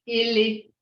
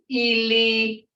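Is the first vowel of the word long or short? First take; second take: short; long. First: The first vowel is said short. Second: The first vowel is said long. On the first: It means a foot. "that's a short E. Ili is his or her foot" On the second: It means dead. "when you get to dead, it's ili"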